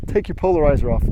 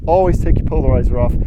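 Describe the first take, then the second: First: Said in the usual way. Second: "Always" punched, louder and faster; stress on Always. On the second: Shown as a demonstration. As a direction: hit the word "Always" hard.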